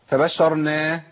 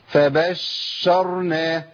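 First: The doubled sh sound is lightened and cut short. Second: The doubled sh sound is held far too long. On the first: "ولا خفف الشين واقول" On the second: "لا ده كتير قوي كده"

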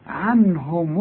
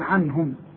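First: The final m carries a u vowel. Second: The final m ends bare, with no vowel. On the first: The word runs on into the next word. "اذا وصلت ولازم توصل هنقول ايه؟" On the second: The reader stops on this word. "اذا وقفت هنشكلها نقول عنهم"

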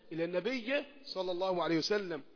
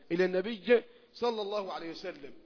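The two takes are said the same way.

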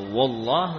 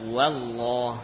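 First: The opening 'wa' sounds thick and heavy. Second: The opening 'wa' sounds thin and light. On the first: The speaker calls it wrong. "bukan dibaca" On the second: The speaker calls it right. "Huruf wawu juga termasuk huruf istifal tipis"

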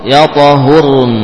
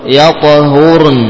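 Both takes have the same delivery.

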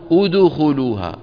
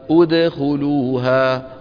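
First: The d sound is said with rounded lips. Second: The d sound is said with unrounded lips. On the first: The speaker calls it wrong. "ولا نقول أدخلوها، ... ضمت أو مالت إلى الضم" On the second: The speaker calls it right. "نعيدهما إلى وضعهما الطبيعي عند الدال الساكنة"

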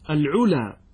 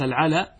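First: The first vowel after the article is not a. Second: The first vowel after the article is open a. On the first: It is the plural of a word meaning high. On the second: It means honor.

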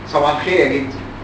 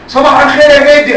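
First: The greeting is said at normal volume. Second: The greeting is said very loudly.

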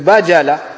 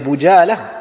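First: The first vowel is an 'a' sound. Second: The first vowel is an 'u' sound. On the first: The speaker calls it right. "c'est avec le fatha" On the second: The speaker calls it wrong. "Avec une dhamma ?"

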